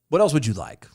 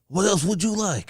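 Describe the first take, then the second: First: It is said in his normal voice. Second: It is said in a put-on Santa voice.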